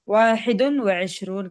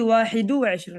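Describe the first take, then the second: First: The first word ends with an added 'un' sound. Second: The first word ends without an added 'un' sound. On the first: The speaker calls it right. "maka mentanwinkan kalau dia puluhan" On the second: The speaker calls it wrong. "لا تقولي"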